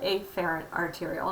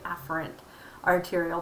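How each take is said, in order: First: The first vowel of afferent is exaggerated. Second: The first vowel of afferent sounds ordinary. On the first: The speaker calls it wrong. "I'm pronouncing it funny. ... just to emphasize the A there" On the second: The speaker calls it right. "It's really afferent arteriole"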